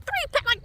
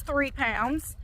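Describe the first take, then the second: First: Imitating her excitement, much higher; hammed-up thrilled nurse, pitched way up; mock excited. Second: Said in the usual way. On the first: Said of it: "And she was all excited". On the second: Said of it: "She says".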